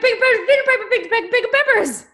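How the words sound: It sounds delighted, like at a surprise party.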